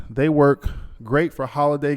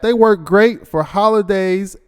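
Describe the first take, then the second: First: Said in the usual way. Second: Higher, louder and slower, leaning hard on "work"; hyped-up repeat. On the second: Shown as a demonstration. Host hyping the sponsor's holiday gifts to listeners, excited and slow. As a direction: sell it like the best news of the year. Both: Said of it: "Look at that".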